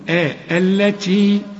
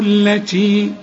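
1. الكلمة تبدأ بهمزة وبعدها حركة. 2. عند الوصل الهمزة تسقط وتتوصل الكلمة اللي قبلها. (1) "علشان أبدأ بها الكلمة أقول التي" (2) "إنما عند الوصل جهنم التي"

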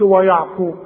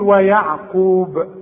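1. المقطع الأول يُنطق ثقيل ومفخم. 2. المقطع الأول خفيف، والقاف ثقيلة. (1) "فما تقولش ويعقوب" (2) "وليه مرققة والقاف مفخمة"

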